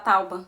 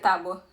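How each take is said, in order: First: The vowel sounds come in the order 'tau-ba'. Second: The vowel sounds come in the order 'tá-bua'. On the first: The speaker calls it right. "Muito melhor falar tauba" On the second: The speaker calls it wrong. "do que tábua"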